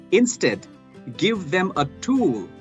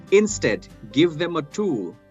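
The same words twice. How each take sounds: No difference in how they are said.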